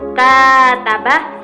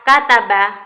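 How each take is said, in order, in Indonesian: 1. Bunyi awalnya ditahan panjang. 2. Bunyi awalnya dijaga tetap pendek. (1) "pengucapan konsonan k dengan menggunakan rentang waktu" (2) "konsonan k tanpa menggunakan waktu"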